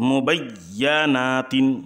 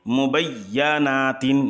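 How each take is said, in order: Both takes have the same delivery.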